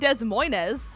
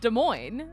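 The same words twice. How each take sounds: First: The S at the end of 'Des' is pronounced. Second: The S at the end of 'Des' is silent. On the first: The speaker calls it wrong. "It's not Des Moines" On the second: The speaker calls it right. "the S is silent"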